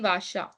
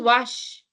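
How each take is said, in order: First: The word ends with an extra vowel sound. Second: The word stops on the final consonant. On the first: The speaker calls it wrong. "Why will it be Vasha?" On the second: The speaker calls it right. "Just Vash. ... it stops"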